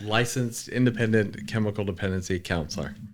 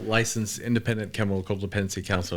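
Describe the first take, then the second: First: The phrase is spoken slowly. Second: The phrase is spoken quickly. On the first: "can we say it slowly one more time?" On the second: "y'all saying that shit mad fast"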